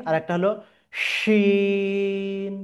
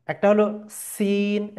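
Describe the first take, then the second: First: শিন with a thick sh, slowly stretched; মোটা শিন; shin contrast. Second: সিন with a thin hissing s; পাতলা সিন; sin contrast. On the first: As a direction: draw out the heavy শিন. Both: Shown as a demonstration. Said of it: "দুটার মধ্যে তফাৎ আছে".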